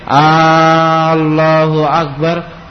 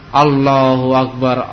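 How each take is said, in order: First: The first vowel is drawn out long. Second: The first vowel is short. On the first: It asks whether Allah is the greatest. The speaker calls it wrong. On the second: It glorifies Allah as the greatest. The speaker calls it right.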